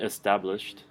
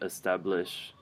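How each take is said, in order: First: The final -ed sound is said strongly. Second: The final -ed sound is dropped. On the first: It sounds like past tense. The speaker calls it right. "be strong about it" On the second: It does not sound like past tense. The speaker calls it wrong. "you just said establish"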